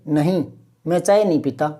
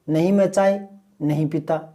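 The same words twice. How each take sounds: First: There is a pause after the first word. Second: The words run together with no pause. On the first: The speaker calls it right. "यूँ बोलेंगे ... मैं चाय नहीं पीता एक साथ बोलेंगे" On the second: The speaker calls it wrong. "ऐसे थोड़ी बोलेंगे"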